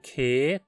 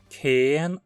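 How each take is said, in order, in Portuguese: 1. A palavra termina sem nenhum som de n. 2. A palavra termina com um som de n audível.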